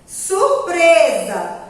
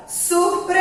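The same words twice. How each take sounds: First: Said in the usual way. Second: "Surpresa" with a long held PRE; drawn-out stressed syllable. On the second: Shown as a demonstration. Teacher showing children the strong syllable, drawn out. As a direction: linger on the middle of "Surpresa": surpreeesa. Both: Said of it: "a sílaba mais forte é o pre".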